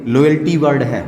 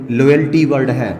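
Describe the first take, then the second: No difference in how they are said.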